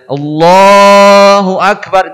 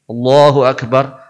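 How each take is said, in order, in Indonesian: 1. Vokal dalam Allah ditahan jauh lebih lama. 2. Vokal dalam Allah hanya ditahan sebentar. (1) "itu empat" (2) "Pondok amat, dua harokat"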